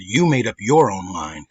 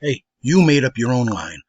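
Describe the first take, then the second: First: Slow, pointed and a bit louder; slow irritated retort; annoyed. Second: Raised voice, pressing the point; emphatic repeat of the accusation; louder callout. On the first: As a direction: call her out, word by word. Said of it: "'cause she pissed me off". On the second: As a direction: say it louder this time. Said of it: "I just started". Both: Retold or imitated.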